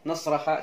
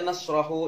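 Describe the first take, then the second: First: The word ends with an 'a' vowel. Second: The word ends with an 'u' vowel. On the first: "jangan dibaca" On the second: "jangan dibaca"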